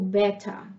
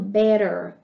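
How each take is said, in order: First: The middle t is a clear t sound. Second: The middle t sounds like a soft d or r. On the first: "e no britânico" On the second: "No inglês americano"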